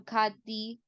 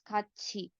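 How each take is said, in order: First: The second syllable begins with a t sound. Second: The second syllable begins with a ch sound. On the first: The speaker calls it wrong. "the spelling of the word might make you think, oh, this should be pronounced as Khathi or Khati" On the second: The speaker calls it right. "but the actual pronunciation is Khachi"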